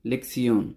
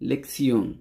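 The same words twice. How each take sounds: Both takes have the same delivery.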